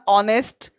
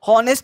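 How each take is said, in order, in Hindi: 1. शब्द सीधे स्वर की आवाज़ से शुरू होता है। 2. शब्द की शुरुआत में साफ़ h की आवाज़ सुनाई देती है। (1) "ये बोलना है ऑनेस्ट" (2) "हॉनेस्ट नहीं"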